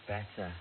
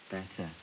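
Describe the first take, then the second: No difference in how they are said.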